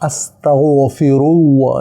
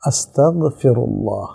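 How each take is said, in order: First: The gh sound is said thick and heavy. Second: The gh sound is said light, not heavy. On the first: The speaker calls it wrong. "এটা এইভাবে আপনাকে পড়তে বলছে কে?" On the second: The speaker calls it right. "তখন এটা পোর থাকবে না"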